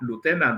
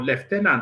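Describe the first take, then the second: First: It is said the American way. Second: It is said the Nigerian way.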